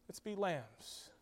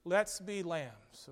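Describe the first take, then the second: First: Much softer, fading echo; softer repeat. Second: Said in the usual way. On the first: Shown as a demonstration. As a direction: let the words sink in quietly. Preacher repeats exhortation softer.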